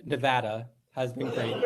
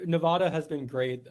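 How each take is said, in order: First: Nevada fixed to nuh-VAD-uh; short A of "cat" in Nevada; self-corrected pronunciation. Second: Nevada slipping out as nuh-VAH-duh; broad AH in the middle of Nevada. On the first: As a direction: restate Nevada the local way, rhyming with "had". Corrects himself to local pronunciation. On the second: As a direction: say Nevada with the A of "father". Slips into the corrected pronunciation. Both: Real, not acted.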